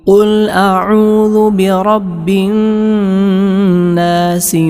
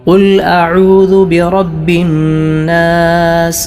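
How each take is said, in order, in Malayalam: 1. അവസാന വാക്ക് ചേർത്ത 'i' സ്വരത്തോടെയാണ് അവസാനിക്കുന്നത്. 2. അവസാന വാക്ക് ഒന്നും ചേർക്കാത്ത വ്യഞ്ജനത്തിലാണ് അവസാനിക്കുന്നത്. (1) "സീനിന് കസ്റ് ചെയ്ത്" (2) "ഇങ്ങനെ എല്ലാ ആയത്തുകളുടെയും അവസാനം സുക്കൂൻ ചെയ്താണ്"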